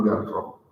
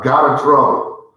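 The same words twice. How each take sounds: First: We got in trouble dropped low and softer; quiet aside. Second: Got in trouble said a bit louder, with energy; louder exclaim. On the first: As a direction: say We got in trouble as a hushed, knowing admission. Repeated confession, dropped quiet. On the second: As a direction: punch out got in trouble as a lively confession. Repeated confession, louder first take. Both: Real, not acted.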